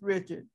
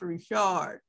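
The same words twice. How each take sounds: First: The name is pronounced the English way. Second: The name is pronounced the French way. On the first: This is how her name is actually said. "but in this case, it really is Richard" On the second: This is the usual local way to say it. "usually when I see the word Richard, it's pronounced Richard"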